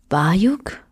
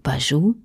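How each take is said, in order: First: The final k sound is pronounced. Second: The final k sound is silent.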